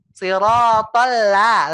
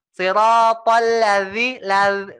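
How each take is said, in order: First: Slow siratal la with a full, round la; perfected la. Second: Slow siratal ladzi with la sliding toward za; slanted recitation. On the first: Teacher models the round, perfected la, slow. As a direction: sustain the la fully first. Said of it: "la-nya sempurnakan". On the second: Teacher imitates the student's slanted la, slow. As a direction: mimic the slanted la. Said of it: "jadi miring gitu suaranya". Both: Shown as a demonstration.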